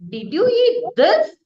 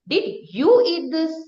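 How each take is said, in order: First: The stress is on "this". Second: The stress is on "you".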